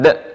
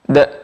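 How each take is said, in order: First: The d is clipped off like a stopped k. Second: The d is released freely and openly. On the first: The speaker calls it wrong. "seperti huruf k yang dimatikan" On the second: The speaker calls it right. "lepas dia"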